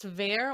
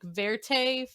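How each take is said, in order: First: The word ends without any final vowel sound. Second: The word ends with an extra vowel sound. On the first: The speaker calls it right. "it's just ver or vert. There's no like A" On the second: The speaker calls it wrong. "You said verte"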